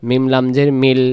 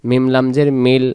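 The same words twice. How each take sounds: The two takes are said the same way.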